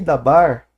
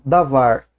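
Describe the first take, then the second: First: The middle consonant is a b sound. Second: The middle consonant is a v sound. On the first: "pronunciado com, como se fosse um beit" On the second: "o beit e o veit é, são é a mesma letra"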